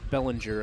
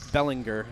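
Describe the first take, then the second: First: The G is said like a J. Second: The G is a hard G sound. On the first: The speaker calls it right. "It's Bellinger, of course" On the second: The speaker calls it wrong. "I used to say"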